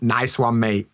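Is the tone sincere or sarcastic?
sarcastic. It sounds sarcastic and mocking.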